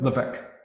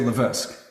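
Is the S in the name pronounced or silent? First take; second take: silent; pronounced. First: The S sound is left silent in the middle. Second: The S sound is pronounced in the middle. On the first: This is the Canadian French way of saying it. "Canada, Levesque" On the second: This is the American way of saying it. "all the Americans, we say Levesque"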